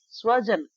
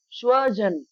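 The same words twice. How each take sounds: First: स्वजन as sva-jan; a plain s opening स्वजन; dental S. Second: स्वजन as shva-jan; sh opening स्वजन; SH replacing S. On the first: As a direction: say स्वजन with स, not श. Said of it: "अगर हम इस स की जगह श". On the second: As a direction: say स्वजन with श instead of स. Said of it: "स की जगह श यूज़ कर लेंगे". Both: Shown as a demonstration.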